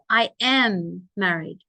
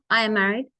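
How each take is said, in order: First: Each short word is separated and stressed. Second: The short words are run together quickly.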